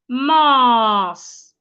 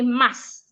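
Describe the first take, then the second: First: The vowel is long. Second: The vowel is short. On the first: The speaker calls it right. "The letter A in this word makes a long sound" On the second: The speaker calls it wrong. "An average person will say mass"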